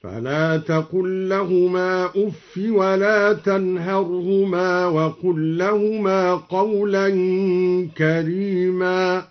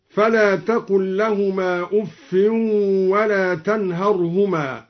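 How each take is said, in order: First: Slow recitation with أف said "uffi"; drawn-out tartil, أف ending in a short i; no tanwin on أف. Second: Said in the usual way. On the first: Shown as a demonstration. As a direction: chant slowly, no n after أف. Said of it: "هكذا".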